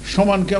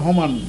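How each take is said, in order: First: The word begins with an s sound. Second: The word begins with an h sound.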